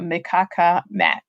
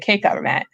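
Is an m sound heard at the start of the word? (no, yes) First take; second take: yes; no. First: The word begins with a sounded m. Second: The word begins without any m sound. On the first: The speaker calls it wrong. "Sorry, I'm pronouncing it" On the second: The speaker calls it right. "The M is silent"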